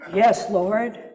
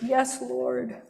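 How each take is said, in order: First: It sounds cool, reasoned and measured. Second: It sounds groveling and pleading. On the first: She argues her case with cool reasoning. "Pharisaical, left-brain Yoda logic intonation" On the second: She humbly pleads for mercy. "sort of that sense of groveling and begging"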